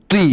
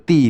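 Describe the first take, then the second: First: তি with a heavy, emphatic Arabic t; correct heavy তি. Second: তি with a light, plain t; mistaken thin তি. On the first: Teacher showing learners the letter ত with zer, correct heavy তি. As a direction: say তি thickly, not as a thin plain t. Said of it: "তি হবে না, তি হচ্ছে তার উচ্চারণ". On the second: Teacher showing what many learners wrongly say, thin তি. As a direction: say তি thinly, without the heavy Arabic t. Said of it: "অনেকে বলে তি". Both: Shown as a demonstration.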